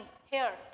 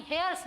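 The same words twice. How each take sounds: First: हेयर said with no s, falling and lower; correct singular form. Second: हेयर्स said with a final s, marked as the wrong form; wrong plural form. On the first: Teacher gives students the right word, a low falling हेयर. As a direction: drop the s and land हेयर low. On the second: Teacher shows students the wrong word, a clear s ending. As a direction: stress the s in हेयर्स. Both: Shown as a demonstration. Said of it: "नहीं, हेयर्स नहीं".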